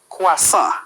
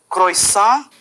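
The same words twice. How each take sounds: First: The middle vowels sound like 'wa'. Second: The middle vowels sound like 'oy'. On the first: The speaker calls it right. "se pronuncia wa" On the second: The speaker calls it wrong. "intentando pronunciar la O y la I como hoy"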